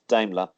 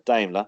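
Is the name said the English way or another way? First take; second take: English; another way. First: The name is said the English way. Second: The name is said the non-English way.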